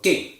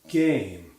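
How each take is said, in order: First: The vowel is clipped very short. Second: The vowel is drawn out very long. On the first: It makes the accent sound foreign. "That vowel is too short" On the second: It sounds closer to British English. "too long"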